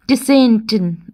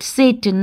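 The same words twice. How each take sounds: First: The name starts with a T sound. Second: The name starts without a T sound. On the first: The speaker calls it wrong. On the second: The speaker calls it right. "T is silent"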